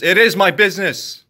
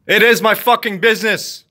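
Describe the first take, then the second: First: It "is" leaned on with a firm fall; firm insistence on "is"; stress on is. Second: It "is" hit higher and harder, falling; heated insistence on "is"; louder stress on is. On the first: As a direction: insist on the word "is". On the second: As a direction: punch "is" with anger. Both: Real, not acted. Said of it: "an angry rant".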